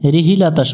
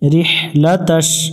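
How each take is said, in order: First: An extra i vowel follows the h sound. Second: No vowel follows the h sound. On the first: The speaker calls it wrong. "মানে হাই নিচে জের উচ্চারণ করে।" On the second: The speaker calls it right. "এখানে হা অক্ষরটা ভালো করে উচ্চারণ করব।"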